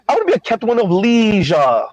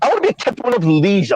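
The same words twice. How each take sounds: First: The phrase is said more slowly. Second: The phrase is said quickly. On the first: The speaker calls it right. "She said" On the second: The speaker calls it wrong. "I said it too quickly"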